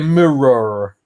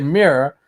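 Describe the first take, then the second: First: Every letter is sounded out in the German way. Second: It is said smoothly in the native English way. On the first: The speaker calls it wrong. "we say mirror ... we try to pronounce all the letters" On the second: The speaker calls it right. "We don't say mirror"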